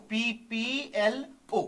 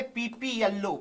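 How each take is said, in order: First: "PPLO" drawn out letter by letter; spelled out slowly. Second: Said in the usual way. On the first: Shown as a demonstration. Teacher spells the term for students, "PPLO" letter by letter.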